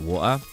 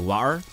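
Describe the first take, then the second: First: It is said with a British accent. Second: It is said with an American accent.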